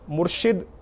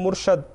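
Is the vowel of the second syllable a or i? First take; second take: i; a. First: The second syllable has an i vowel. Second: The second syllable has an a vowel. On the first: One who gives guidance. The speaker calls it right. "मुर्शिद के माने हैं हिदायत देने वाला" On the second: One who was given guidance. The speaker calls it wrong. "बाज़ लोग बोलते हैं मुर्शद"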